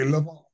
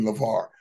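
First: Imitated Australian "LeVar", said like "lover"; Australian accent. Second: Said in the usual way. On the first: Father mimicking Australian ladies calling his name, in an Australian accent. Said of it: "They say LeVar". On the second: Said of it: "'cause they don't say LeVar".

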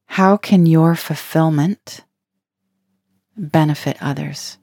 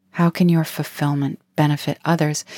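First: Slow, with a pause before benefit; asked slowly, broken in two; slow posed question. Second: Said in the usual way. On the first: Shown as a demonstration. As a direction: let the question sink in, slowly.

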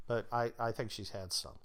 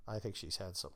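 First: Said in the usual way. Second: Much softer, lower throwaway repeat; muted repeat. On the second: Real, not acted. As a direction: drop it to a soft aside. Repeated punchline, muted second take.

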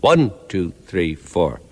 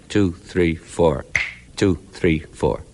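First: ONE punched, the rest lighter; accent on one. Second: A gasp where one should be, then Two, three, four; missing first beat. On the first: Teacher counts bars with the usual accent on One. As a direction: hit One, let two three four fall away. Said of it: "there is a simple syncopation". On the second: Teacher shows syncopation by dropping the first beat. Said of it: "Take it away". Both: Shown as a demonstration.

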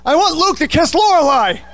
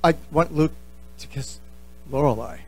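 First: High, loud sudden blurt; a confession that escapes louder and higher than meant. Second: Quieter, lower, trailing away as the nerve goes; the same confession, now shrinking and fading; sheepish repeat. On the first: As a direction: let it burst out of you, too loud for the room. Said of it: "you just blurt out". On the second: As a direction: mumble it again, embarrassed. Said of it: "He said". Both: Retold or imitated.

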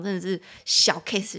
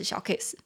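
First: Said in the usual way. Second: 小case repeated in a whisper; whispered echo. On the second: Shown as a demonstration. Teacher whispering the phrase again to viewers.

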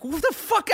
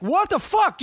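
First: High, incredulous what the fuck; repeating his shock at the bats; shocked outburst. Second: High, startled what the fuck; retelling his shock at seeing bats; shocked outburst. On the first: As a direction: squeak it out in disbelief. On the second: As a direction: squeal it in disbelief. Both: Retold or imitated.

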